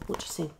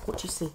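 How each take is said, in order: Both takes have the same delivery.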